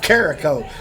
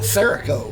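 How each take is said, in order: First: The name begins with a K sound. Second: The name begins with an S sound. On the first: The speaker calls it right. "but it's Carico" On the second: The speaker calls it wrong. "I keep wanting to call it Serico"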